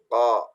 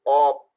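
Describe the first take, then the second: First: The sound is made with lips open and unrounded. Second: The sound is made with pushed-out, rounded lips. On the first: The speaker calls it right. "bibirnya tidak gerak atau tidak monyong, cuman terbuka" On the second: The speaker calls it wrong. "berlebihan sampai op, op, ko, atau mungkin monyong"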